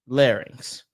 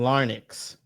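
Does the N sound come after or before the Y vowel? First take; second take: after; before. First: The N sound follows the Y vowel. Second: The N sound comes before the Y vowel. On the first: The speaker calls it right. "L A R Y N X" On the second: The speaker calls it wrong. "I think you're putting the N before the Y"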